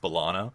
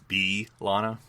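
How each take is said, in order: First: The B is short and run into the name. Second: The B is long and clearly set apart. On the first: This is the casual form used through most of the series. "we just also get lazy and it's" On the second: This is the careful form used early on. "we're still using the long B, so it's"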